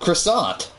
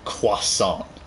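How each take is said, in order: First: The word is said with an English pronunciation. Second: The word is said with a French pronunciation. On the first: It is the normal way to say it. The speaker calls it right. "That's the English version" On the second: It sounds pretentious from an English speaker. The speaker calls it wrong. "I can't stand when some people say croissant"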